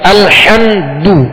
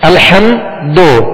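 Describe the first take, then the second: First: The final vowel is a tightly rounded u sound. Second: The final vowel is an open o sound. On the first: The speaker calls it right. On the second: The speaker calls it wrong.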